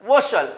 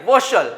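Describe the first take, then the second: First: The ending is said as 'vershal'. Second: The same.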